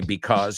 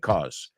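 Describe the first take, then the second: First: The word is said with both syllables. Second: The first syllable is dropped from the word. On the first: The speaker calls it wrong. "a lot of times we don't say because" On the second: The speaker calls it right. "we say cause"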